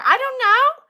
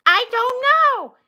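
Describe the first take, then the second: First: "I don't know" lifted at the end; unsure, upturned "know"; rising uncertainty. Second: "I don't know" slowly, falling on "know"; slow, definite "I don't know"; falling finality. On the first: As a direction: let "know" rise like a question. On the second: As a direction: stretch it out and drop "know". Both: Pretend. Same words, rising then falling.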